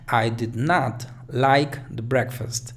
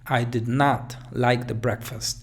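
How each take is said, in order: No difference in how they are said.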